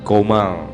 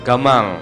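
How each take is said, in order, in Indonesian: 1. Vokal pertama adalah bunyi o bulat. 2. Vokal pertama adalah bunyi a terbuka.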